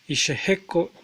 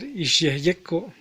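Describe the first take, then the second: First: The y sound is replaced by the sh sound. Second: The y sound is kept after the sh sound. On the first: This is how the word is naturally spoken. "de manera natural se pronuncia como Isheheko" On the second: This is the form the two parts would give unchanged. "al unirlas debería de ser Ishyeyeko"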